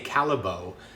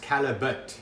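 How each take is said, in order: First: The name is said with a French-style pronunciation. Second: The name is said with a Flemish pronunciation. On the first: The speaker calls it wrong. "people often say Callebaut, but it's not a French name" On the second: The speaker calls it right. "it's a Flemish name. So it's pronounced Callebaut"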